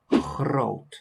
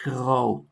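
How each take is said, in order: First: The G is a ch sound, one R variant. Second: The G and R use their other variants. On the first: "I've chosen the ch for the G and the r for the R" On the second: "the other pronunciation of both letters"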